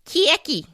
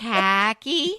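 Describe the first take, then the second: First: "Khaki" pitched high, with a drawn-out first vowel; questioned pronunciation. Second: "Khaki" drawn out with a questioning rise; trying out pronunciation. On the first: Host answering co-host's query, trying out "Khaki" in an exaggerated pronunciation. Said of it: "Did you say khaki?". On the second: Host checking the word with co-host, "Khaki" stretched and rising. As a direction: say "Khaki" slowly as a question, testing the sound. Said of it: "How do you say it?". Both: Shown as a demonstration.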